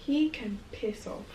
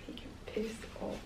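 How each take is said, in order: First: Said in the usual way. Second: "He can piss off" whispered much softer; whispered repeat. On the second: Real, not acted. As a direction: hiss it again under your breath.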